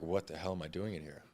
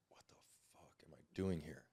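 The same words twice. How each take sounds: First: Said in the usual way. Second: A dazed, breathless whisper to himself; confused whisper. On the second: Retold or imitated. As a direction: whisper it, lost and bewildered. Waking confused in the ambulance.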